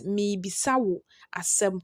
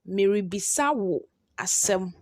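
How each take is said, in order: First: The ri syllable is dropped from the first word. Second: The first word keeps the ri syllable. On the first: "when you are pronouncing it, you pronounce it as" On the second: "That is how you write it"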